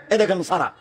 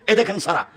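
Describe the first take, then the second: No difference in how they are said.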